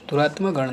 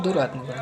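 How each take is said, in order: First: दुरात्मा गण with long maa; wrong form. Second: दुरात्मा गण with short ma; corrected form. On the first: Teacher shows the error, दुरात्मा with long ending. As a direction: lengthen the end of दुरात्मा. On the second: Teacher corrects students, दुरात्मा गण as duratma-gan, short ma. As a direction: shorten the end of दुरात्मा before गण. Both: Shown as a demonstration. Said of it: "नहीं होता है".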